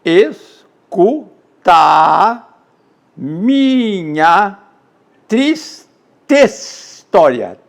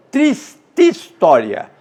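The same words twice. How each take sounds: First: Each syllable of "Escuta a minha triste história" drawn out and separated; "triste" and "história" kept apart, no elision; syllables split. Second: "Triste história" run together as trististória; vowels fused. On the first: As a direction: count the syllables of "triste história" one by one, very slowly. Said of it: "Então eu teria oito versos". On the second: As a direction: blend the final e of "Triste" into "história". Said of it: "Eu faço a fusão". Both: Shown as a demonstration.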